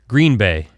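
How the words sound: The stress falls on the word Green. The speaker calls it wrong. "It's not the emphasis on green"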